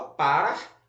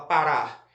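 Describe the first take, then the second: First: "parar" stressed on the first syllable, PA-rar; wrong stress on PA. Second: "parar" stressed on the last syllable, pa-RAR. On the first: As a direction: say "parar" with the beat moved to PA, as a question. ("parar" com acento errado no PA) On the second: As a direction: land the beat on the final RAR of "parar". ("parar" com a última sílaba forte, RAR) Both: Shown as a demonstration. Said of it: "a sílaba mais forte é a última sílaba".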